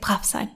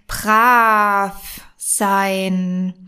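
First: It is said in a mild, friendly tone. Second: It is said in a threatening tone.

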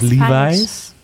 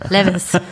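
First: The name is said the standard, non-regional way. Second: The name is said with a Westphalian pronunciation.

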